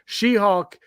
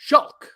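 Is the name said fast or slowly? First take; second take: slowly; fast. First: The name is said slowly, both parts clear. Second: The name is said fast, syllables run together.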